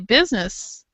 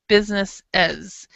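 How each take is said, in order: First: The final 'es' syllable is left out. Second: The final 'es' syllable is clearly said. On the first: The speaker calls it wrong. "they'll say business, but they won't say this part" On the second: The speaker calls it right. "we always have as. This e is always pronounced"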